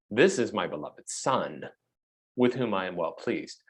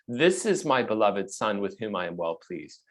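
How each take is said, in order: First: The word 'this' is said with strong emphasis. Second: The sentence is read plainly without special emphasis.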